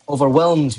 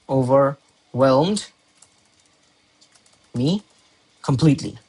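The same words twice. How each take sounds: First: Said in the usual way. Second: "Overwhelmed" very slow, split into parts; "Overwhelmed" stretched out as if writing along; slow dictation. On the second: Shown as a demonstration. Dictating the word while writing.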